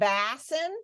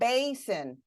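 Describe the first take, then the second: First: The first vowel is a short vowel sound. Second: The first vowel is a long vowel sound. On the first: The speaker calls it wrong. "I would flex the vowel sound of that first vowel, but is it basin? Have I ever heard of a basin? No" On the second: The speaker calls it right. "How about basin? Like, have I heard of a basin?"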